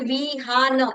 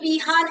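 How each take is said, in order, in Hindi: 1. नाम को अलग-अलग अक्षरों में तोड़कर बोला जाता है। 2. नाम एक साथ, सहजता से बोला जाता है। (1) "ऐसे मुझे क्रम से बोलना पड़ेगा" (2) "एक साथ विहान ऐसा एक समय में नहीं बोल सकती"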